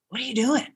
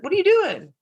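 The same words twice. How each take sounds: First: Said in the usual way. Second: High mock clerk. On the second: Clerk's question imitated.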